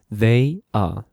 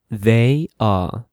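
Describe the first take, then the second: No difference in how they are said.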